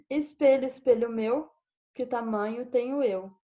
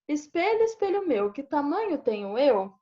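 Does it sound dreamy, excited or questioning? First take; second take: dreamy; questioning. First: It sounds dreamy and doubtful, trailing off. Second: It sounds like a real question.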